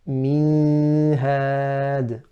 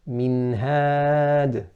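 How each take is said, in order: First: The nasal n sound is held long. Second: The nasal n sound is kept short. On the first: The speaker calls it wrong. "prolonging that ghunnah. And that is incorrect" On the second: The speaker calls it right. "Correct is to say minhad"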